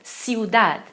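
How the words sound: The first consonant is a hissing s sound. "vai ter som de C mesmo"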